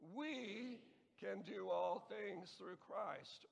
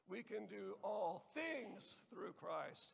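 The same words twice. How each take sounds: First: The word "we" is stressed. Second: The word "things" is stressed. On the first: "emphasize the first word the first time" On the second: "and so on"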